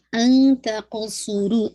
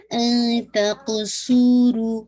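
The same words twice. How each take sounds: First: ان تقصروا very slow, ن hidden light, not heavy; slow tajweed recitation; light ikhfa. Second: ان تقصروا very slow, ص heavy, ق bounced; slow tajweed recitation; heavy sad. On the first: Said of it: "heavy نہیں کیا جائے گا". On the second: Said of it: "صاد heavy رکھے گا". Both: Shown as a demonstration.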